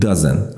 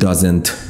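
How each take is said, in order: First: The final t sound is dropped. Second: The final t sound is clearly pronounced. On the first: The speaker calls it right. "میگیم" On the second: The speaker calls it wrong. "تی رو دیگه تلفظ نمی کنیم. نمیگیم"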